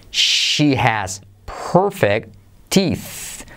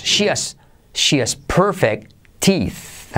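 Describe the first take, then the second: First: Very slow, careful "She has perfect teeth"; slow demo. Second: Said in the usual way. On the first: Shown as a demonstration. Teacher modelling sentence slowly for learners, very slow. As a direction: drag each word out slowly. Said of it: "slower repeat". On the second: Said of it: "teaching demo".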